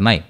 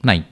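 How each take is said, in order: Both takes have the same delivery.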